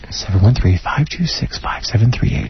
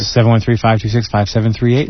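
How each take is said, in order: First: The number is read at a slower pace. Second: The number is read at a quicker pace.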